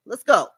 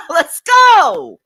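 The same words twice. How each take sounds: First: Said in the usual way. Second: Much higher, shouted "Let's go!"; excited shout. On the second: Real, not acted. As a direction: yell it like a hype call. Host hypes up after laughing.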